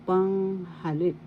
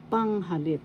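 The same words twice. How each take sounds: First: Panghalip slowly, long high first sound, then accented LIP; stress on third syllable. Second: Panghalip with PANG stressed, falling away after; stress on first syllable. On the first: Teacher shows the usual accent, third syllable of Panghalip stressed. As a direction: say Panghalip drawn out, accent landing on final LIP. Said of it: "The third syllable has the accent".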